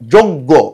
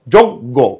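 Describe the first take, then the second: First: The first vowel sounds like 'o'. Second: The first vowel sounds like 'o'.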